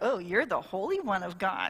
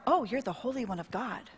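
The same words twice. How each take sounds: First: It is said in a sarcastic, mocking tone. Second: It is said in a fearful, dreading tone. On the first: The speaker is mocking the one addressed. "Was it like sarcastic" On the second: The speaker dreads being destroyed by the one addressed. "We're going to be destroyed by you"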